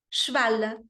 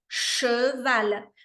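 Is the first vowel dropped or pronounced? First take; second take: dropped; pronounced. First: The first e is dropped. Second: The first e is fully pronounced. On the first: "a gente pode deixar esse E cair também ... como os nativos falam" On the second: "O E francês, lábios de O, som de E"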